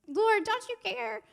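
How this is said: It is said in a whiny, complaining voice.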